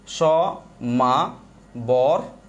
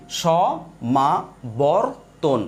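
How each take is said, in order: First: সমাবর্তন stretched very slowly with a rising end; syllable demo. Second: সমাবর্তন drawn out very slowly, syllable by syllable; syllable demo. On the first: Teacher sounding সমাবর্তন by the technique way. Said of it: "দেখেন, লিখেন আপনি সমা". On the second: Teacher breaking সমাবর্তন into syllables for counting. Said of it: "basic নিয়ম বলি". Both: Shown as a demonstration.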